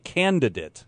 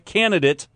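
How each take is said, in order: First: Both D sounds are clearly pronounced. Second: One of the two D sounds is dropped. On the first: The speaker calls it right. "two D's in there" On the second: The speaker calls it wrong. "Not a candidate"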